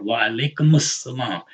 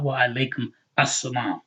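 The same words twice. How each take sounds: First: "Wa alaikumus salam" with the dhamma linked as -mus; vowel carried over. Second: "Wa alaikum assalam" with the words kept apart, no linking; wrong unlinked form. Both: Shown as a demonstration. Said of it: "It's not".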